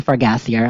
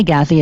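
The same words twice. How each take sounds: First: "Fargassier" said the English way, ending in "-er"; actual pronunciation. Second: "Gassier" said the French way, ending in "-ay"; French pronunciation. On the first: Podcaster correcting a buddy's name, "Fargassier" with an English "-er" ending. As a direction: say "Fargassier" without French, far-GASS-ee-er. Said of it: "it's actually Fargassier". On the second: Podcaster admitting how they say a buddy's name, "Gassier" in French pronunciation. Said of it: "give him the French pronunciation". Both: Shown as a demonstration.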